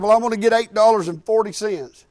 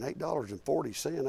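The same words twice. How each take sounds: First: Said in the usual way. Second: Quiet disbelieving question, "forty" rising; incredulous echo. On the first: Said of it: "and he said". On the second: Retold or imitated. Thinking over the teen's odd gas order, quietly incredulous. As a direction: repeat the odd sum back in quiet disbelief. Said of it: "I'm thinking".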